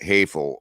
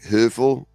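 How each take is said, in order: First: The first vowel is an open 'a' sound. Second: The first vowel is a rounded German ö sound. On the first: This is how many Americans say it. "a lot of people in America pronounce the O E as A" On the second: This is the original German pronunciation. "German word is actually like Höfel"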